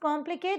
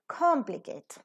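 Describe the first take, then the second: First: The first k has no strong puff of breath. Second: The first k has a strong puff of breath. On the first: The speaker calls it wrong. "it is not just complicate" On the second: The speaker calls it right. "the k is to be aspirated as well"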